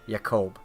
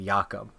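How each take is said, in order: First: The name is pronounced the English way. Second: The name is pronounced the Scandinavian way. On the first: The speaker calls it right. "but it's Jakob" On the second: The speaker calls it wrong. "I'm accidentally pronouncing it the, the Scandinavian way of Jakob"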